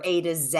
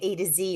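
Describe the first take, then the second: First: The last letter is said the English way. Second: The last letter is said the American way.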